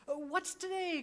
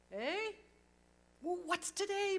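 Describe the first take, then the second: First: Higher, eager cry out the window; joyful cry. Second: Higher, louder call to the street below. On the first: Scrooge calling down to a boy in the street, joyful cry. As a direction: call out with giddy joy. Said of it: "cried Scrooge". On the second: Scrooge calling down to a boy in Sunday clothes, loud happy call. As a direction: shout down to the boy, delighted. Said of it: "calling downward to a boy". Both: Acted.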